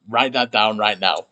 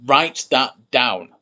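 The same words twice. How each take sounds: First: Said in the usual way. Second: Slow, deliberate dictation. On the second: Shown as a demonstration. Teacher dictating a key sentence, slow and deliberate. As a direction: spell it out slowly for the class. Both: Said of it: "a very important sentence".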